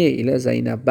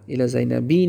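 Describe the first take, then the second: First: "زینب" ends without kasra, zaynab; the correct "الی زینب", no -i ending; "زینب" ends flat with no added vowel; correct form. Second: "زینبی" said with an added -i kasra ending, zaynabi; the incorrect form "الی زینبی", ending in -i; "زینبی" with a wrong kasra -i at the end. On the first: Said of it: "الی زینبی نه". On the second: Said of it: "نه". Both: Shown as a demonstration.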